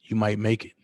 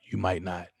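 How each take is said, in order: First: Said in the usual way. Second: "might" hit, voice dropping softer on "not"; stress on might. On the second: Real, not acted. Leaving the threat hanging, "might" stressed softly. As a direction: lean on "might", then let it fall away. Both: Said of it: "That's all I'm gonna say".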